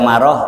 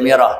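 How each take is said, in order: First: The first vowel after m is a. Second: The first vowel after m is i. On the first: "bukan dibaca maroh" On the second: "bukan dibaca miroh"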